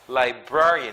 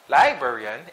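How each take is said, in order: First: The stress is on the second syllable. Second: The stress is on the first syllable. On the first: The speaker calls it right. "the stress is in the second syllable" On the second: The speaker calls it wrong. "it's not librarian"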